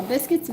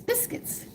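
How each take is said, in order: First: Said in the usual way. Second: Breathy whisper of biscuits, said biscuits softly with no voice; whispered word. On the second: Shown as a demonstration. Cook spelling biscuits for viewers, then whispering it. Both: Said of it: "how do you spell it?".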